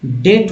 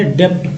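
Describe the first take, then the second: First: डेट said as date, b silent; right take, डेट like date; correct pronunciation. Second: डेप्ट with the b sounded, like depth; wrong take, डेप्ट with p; wrong pronunciation. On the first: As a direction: say डेट with no b sound at all. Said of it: "सही उच्चारण जो है मैं आपको बताऊं कि". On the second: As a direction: say डेप्ट with a hard p before the t. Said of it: "डेप्ट पढ़ रहे थे तो क्या सही पढ़ रहे थे". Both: Shown as a demonstration.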